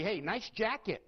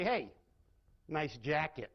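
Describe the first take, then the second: First: Genuine, friendly "Hey, nice jacket."; mean it as a real compliment; an honest, pleasant "nice jacket"; sincere compliment. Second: Dry sarcastic "Hey, nice jacket."; mocking "nice jacket", not meant. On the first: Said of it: "I can use the exact same words and say". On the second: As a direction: say it as a backhanded dig. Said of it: "Same exact words. Very different meaning". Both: Shown as a demonstration.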